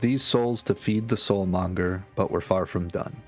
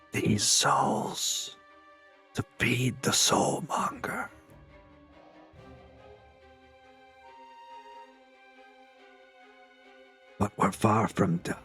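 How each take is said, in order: First: It is spoken in a normal voice. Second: It is spoken in a whisper. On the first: "If you didn't hear the whisper" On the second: "you hear this this whisper of a voice"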